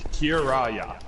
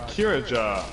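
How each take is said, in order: First: The last consonant is a Y sound. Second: The last consonant is a J sound.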